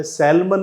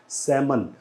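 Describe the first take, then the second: First: सैलमन with the l sounded, "SAL-man"; wrong pronunciation. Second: सैमन with silent l, "SAM-un", softer; correct pronunciation. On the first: Teacher shows another form not to say, wrong pronunciation. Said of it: "नहीं बोला जाता है". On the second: Teacher corrects the fish word, correct pronunciation. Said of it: "इसे बोला जाता है". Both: Shown as a demonstration.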